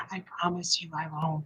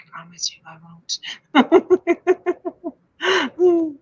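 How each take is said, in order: First: Low, hushed ghostly voice, lightly done; a hint of a spooky ghost whispering a promise; haunted voice. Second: Hushed ghostly promise with a wailing drawn-out end; half-laughing mock ghost moan; haunted voice. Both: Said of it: "That's in my haunted voice".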